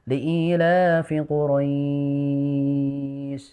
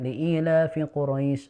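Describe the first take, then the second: First: The vowel in Quraisy is held for six counts. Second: The vowel in Quraisy is held for two counts. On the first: "atau enam" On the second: "kita baca dua"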